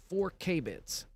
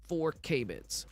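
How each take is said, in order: Both takes have the same delivery.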